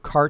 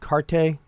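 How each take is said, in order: First: The word ends on the t sound. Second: A final vowel is sounded after the t. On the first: The speaker calls it right. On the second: The speaker calls it wrong.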